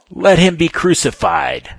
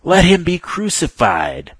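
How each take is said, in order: First: High, loud crowd cry; the multitude yelling at Pilate; crowd shout. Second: Slower, high and loud crowd cry; the crowd drowning out Pilate; crying out exceedingly. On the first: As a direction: bellow it as a demand. Crowd demands crucifixion. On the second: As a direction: drag each word out in a furious roar. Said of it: "they cried out exceedingly". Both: Acted.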